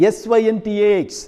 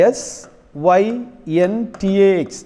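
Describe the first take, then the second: First: Quick letter-by-letter spelling. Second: "S", pause, "Y", pause, then "N T A X" spaced out; teacher dictating the spelling slowly. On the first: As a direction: spell "S Y N T A X" in one quick run of letters. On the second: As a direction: dictate each letter with long gaps for students to write. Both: Shown as a demonstration. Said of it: "അതിൻ്റെ syntax".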